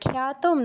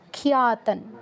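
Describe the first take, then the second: First: The opening 'khya' is squeezed into one syllable. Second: The opening is split into two syllables, 'khi-ya'. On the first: The speaker calls it wrong. "খ্যাতম নয়" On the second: The speaker calls it right. "খিয়া খিয়া"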